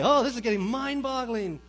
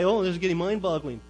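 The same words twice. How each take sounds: First: It is said in a pleased, delighted tone. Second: It is said in a dismayed, complaining tone. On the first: Being confused is a good thing. The speaker calls it right. "This is a good thing" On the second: Being confused is a bad thing. The speaker calls it wrong. "as if that's a bad thing"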